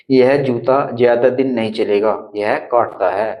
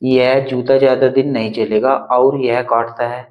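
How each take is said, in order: First: Short pause after "चलेगा" before "यह काटता है"; pause at semicolon. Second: "और" joining the clauses, sounding odd; wrong version with और. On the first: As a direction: break at the semicolon, then finish. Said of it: "अब इसको ऐसे बोलेंगे". (अर्धविराम पर ठहरकर पढ़ना) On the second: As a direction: read it with "और" to show it sounds wrong. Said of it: "थोड़ा odd सा फील नहीं हो रहा". ("और" लगाकर गलत ढंग से पढ़ना) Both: Shown as a demonstration.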